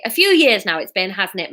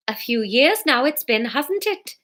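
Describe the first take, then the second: First: Put-on Welsh-accented, dropping away at the end; awkward answer with Welsh lilt. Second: Welsh attempt gone Geordie; slipped into Geordie. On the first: A narrator's reading. Fiona answers Jack uncomfortably, Welsh accent. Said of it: "mumbled Fiona in a Welsh accent". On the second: Fiona answers Jack, accidentally Geordie-accented. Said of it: "she's gone, Geordie, now".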